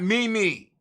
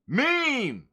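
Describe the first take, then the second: First: It is said as two separate syllables. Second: It is said as a single syllable. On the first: The speaker calls it wrong. "it's not me, me" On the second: The speaker calls it right. "It's meme"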